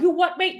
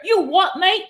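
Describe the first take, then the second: First: Put-on corrected British accent, "You what, mate?" with a clear rise. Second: Mock British accent, "You what, mate?" rising at the end; imitating a British lad squaring up, British accent. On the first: Retrying the angry British guy's line, British accent. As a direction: another go at the British lad, British accent. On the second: Angry British guy in a Hong Kong bar, mock British accent. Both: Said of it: "Or maybe I said that wrong".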